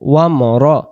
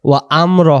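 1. অক্ষরগুলো 'wamra' হিসেবে মসৃণভাবে একসাথে জোড়া লাগানো। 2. অক্ষরগুলো 'wa am ra' হিসেবে আলাদা আলাদা করে ভাগ করা। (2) "ওয়া আম র হবে না"

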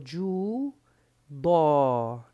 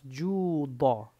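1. La vocal final se alarga. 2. La vocal final se corta. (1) "estaba extendiendo la fatha" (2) "Córtale la o"

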